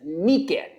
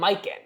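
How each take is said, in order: First: The first syllable sounds like 'me'. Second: The first syllable sounds like 'my'. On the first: The speaker calls it right. "I swear the orange is Meekin" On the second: The speaker calls it wrong. "They keep saying Miken"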